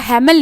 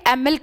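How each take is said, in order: First: The name begins with an audible H sound. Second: The name begins with a vowel, no H. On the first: The speaker calls it wrong. "हैमिल नहीं कहा, reason being यहां पर एच silent है" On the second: The speaker calls it right. "इसको मैंने एमिल कहा"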